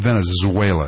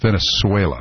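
First: The middle consonant is a 'z' sound. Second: The middle consonant is an 's' sound. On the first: The speaker calls it wrong. "Not Venezuela, I was just told" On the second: The speaker calls it right. "no Z sound"

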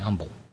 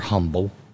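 First: The word is said in a plain English way. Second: The word is said with a French-like sound.

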